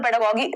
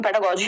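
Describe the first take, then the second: First: पेडागोगी said with a hard g in गोगी; पेडागोगी, ending in "-gee" as in geese; hard g slip. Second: पेडागोजी said with a j sound in गोजी; पेडागोजी, ending in "-jee" like the letter G; corrected soft g. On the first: Real, not acted. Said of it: "उल्टा ही बोल दिया मैंने". (पेडागोगी के अंत में कठोर "ग" का उच्चारण) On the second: Shown as a demonstration. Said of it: "पेडागोजी होता है normally". (पेडागोजी के अंत में "ज" का सही उच्चारण)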